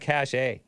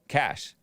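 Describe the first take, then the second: First: The word sounds different from cash. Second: The word sounds exactly like cash. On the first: The speaker calls it wrong. "It's not cache" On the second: The speaker calls it right. "I think it's pronounced cash, right?"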